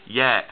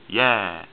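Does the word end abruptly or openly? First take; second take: abruptly; openly. First: The word ends abruptly with a throat stop. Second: The word ends openly, without a throat stop. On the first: The speaker calls it right. "I say yeah. You hear the eh at the end there" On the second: The speaker calls it wrong. "I don't say yeah"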